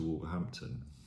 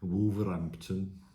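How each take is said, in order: First: It is said in a standard, non-local accent. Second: It is said in a local Black Country accent.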